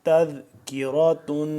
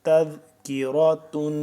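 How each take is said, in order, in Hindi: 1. शब्द पूरे 'tun' अक्षर पर खत्म होता है। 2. शब्द पूरे 'tun' अक्षर पर खत्म होता है।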